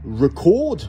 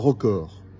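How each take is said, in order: First: The stress is on the second syllable. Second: The stress is on the first syllable. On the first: It is the verb meaning to record something. "avec le son de Cro-Magnon sur la première syllabe" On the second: It is the noun meaning a record. "si j'accentue la première syllabe"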